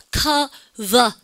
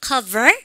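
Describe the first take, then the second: First: "cover" in two slow syllables, no R sound at the end; British pronunciation. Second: "cover" with a clear R at the end; American pronunciation. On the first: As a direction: say "cover" British-style, ending on an open "vuh". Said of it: "영국식으로 발음하면". (영국식으로 끝의 R 없이 "cover") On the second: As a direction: say "cover" American-style, curling into the final R. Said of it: "미국식은 R 발음하면". (미국식으로 끝의 R을 살려 "cover") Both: Shown as a demonstration.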